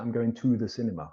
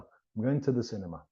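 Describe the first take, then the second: First: The word 'to' is said in full. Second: The word 'to' is reduced to a weak form. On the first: The speaker calls it wrong. "We don't say" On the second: The speaker calls it right. "the weak form becomes t"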